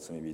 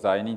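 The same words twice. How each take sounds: First: It is said with the church reading. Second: It is said with the everyday reading. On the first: This is the reading used in church. "教会ではこれを罪人と読むわけでして" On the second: This is the ordinary reading of the word. "普通これ罪人と読みますけども"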